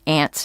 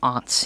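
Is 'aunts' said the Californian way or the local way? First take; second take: Californian; local. First: It uses the Californian regional pronunciation. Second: It uses the local regional pronunciation. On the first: "We say aunts in California" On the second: "You say aunts here"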